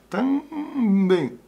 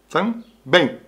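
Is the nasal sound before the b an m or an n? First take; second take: n; m. First: The nasal before the b is an n. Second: The nasal before the b is an m. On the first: The speaker calls it wrong. "Se você fosse usar com N, aí havia uma dificuldade maior" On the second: The speaker calls it right. "ela só tem que ser com M"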